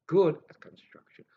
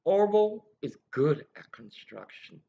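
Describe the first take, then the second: First: A secretive whispered echo; whispered aside. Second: Said in the usual way. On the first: Real, not acted. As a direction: whisper "Good at construction" as a hushed aside. Repeats line, then whispers it.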